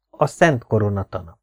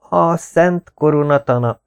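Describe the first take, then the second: First: Said in the usual way. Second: Thin, scratchy, slow and higher; a nervous student's reedy croak; thin hoarse voice. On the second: Acted. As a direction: squeeze it out thin and rasping. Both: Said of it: "a hangom egészen vékony és reszelős".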